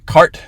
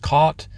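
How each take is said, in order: First: An r sound is pronounced after the vowel. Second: No r sound is pronounced after the vowel.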